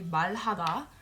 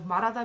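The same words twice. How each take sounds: First: The middle consonant sounds like an L. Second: The middle consonant sounds like an R. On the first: The speaker calls it wrong. "sometimes people say 말하다" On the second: The speaker calls it right. "It's an R sound because again it has that H afterwards"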